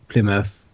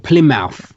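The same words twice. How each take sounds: First: The ending is reduced to a short 'muth'. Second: The ending is said fully, like 'mouth'. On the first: This is how locals say it. "that's how we would pronounce it as well, like" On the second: This is how some Americans say it. "I've heard American people when it says like M O U T H at the end, they say like"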